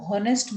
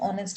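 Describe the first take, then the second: First: The word starts with an audible h sound. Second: The word starts with a vowel, no h sound. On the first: The speaker calls it wrong. "अगर हम उसको हॉनेस्ट बोल रहे हैं ... तो then it becomes wrong" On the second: The speaker calls it right. "तो उसका pronunciation ऑनेस्ट है"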